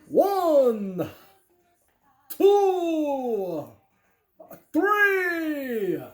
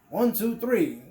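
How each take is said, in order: First: It is counted in a Dracula voice. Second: It is counted in a normal voice.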